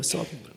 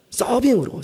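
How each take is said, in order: First: 서빙으로 repeated much softer, trailing away; soft echo. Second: 서빙으로 said higher and firm, falling at the end; punchline stress. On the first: Preacher echoing the punchline to himself, quietly. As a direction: let 서빙으로 fall away in a near-aside. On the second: Preacher repeating the elder's punishment, stressed. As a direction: land 서빙으로 as the punchline, high and pointed. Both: Shown as a demonstration. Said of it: "서빙으로 발령을 내리시래".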